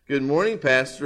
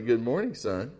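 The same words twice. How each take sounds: First: Said in the usual way. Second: Softer, hushed pastor; quietly. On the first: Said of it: "replied the young man". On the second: A narrator's reading. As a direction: say it softly beside the boy. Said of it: "he said quietly".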